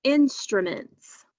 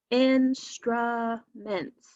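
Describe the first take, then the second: First: Said in the usual way. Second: "Instruments" very slow, in three separated beats; syllable by syllable. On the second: Shown as a demonstration. Teacher counting three syllables with students, "Instruments" slowly broken up. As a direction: draw out each syllable of "Instruments". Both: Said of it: "Let's break it apart".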